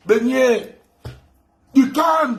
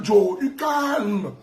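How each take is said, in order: First: Du calme lancé haut et fort; nargue-le d'une voix haute; moquerie aiguë. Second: Joe, du calme traîné très lentement en criant; étire chaque syllabe pour le narguer; moquerie étirée. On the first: (taquinerie aiguë et forte) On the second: (raillerie lente et criée) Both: Acted. Mocking chant at rival.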